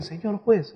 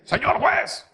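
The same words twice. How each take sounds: First: Timid, hesitant greeting to the judge; a hint of fear on "Señor juez"; nervous address. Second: "Señor juez" said with a rising, irritated edge; a touch of sullen annoyance on "Señor juez"; annoyed address. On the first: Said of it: "tan mie-, mie-, miedoso, nervioso". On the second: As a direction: greet the judge like a man dragged here against his will. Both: Shown as a demonstration.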